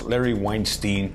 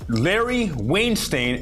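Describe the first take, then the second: First: The surname's ending is said the standard way. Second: The surname's ending sounds like the word 'stain'. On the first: The name is given its official form. "it's officially pronounced" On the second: The name is mocked on purpose. "I say it like that on purpose because he is a stain"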